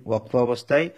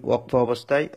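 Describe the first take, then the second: Both takes have the same delivery.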